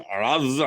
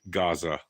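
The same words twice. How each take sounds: First: The word begins with a throaty, guttural sound. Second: The word begins with a plain hard G. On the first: "they pronounce it like as if they grew up there their whole life" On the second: "It's Gaza with a G"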